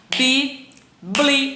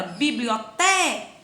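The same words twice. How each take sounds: First: BIBLIOTECA in five loud, separate syllables. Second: BIBLIOTECA with a long drawn-out TE; stretched stressed syllable. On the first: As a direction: chop biblioteca into bi-bli-o-te-ca, long pauses between. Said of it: "Vamos lá". (biblioteca separado sílaba por sílaba) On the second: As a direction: hold the te in biblioteca. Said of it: "A sílaba tônica dela". (biblioteca com o "te" bem alongado) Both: Shown as a demonstration.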